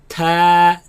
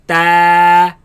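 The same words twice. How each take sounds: First: The t is spat out with a puff. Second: The t is solid without a puff. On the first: The speaker calls it wrong. "they spit it out like" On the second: The speaker calls it right. "pronounced as solid sound"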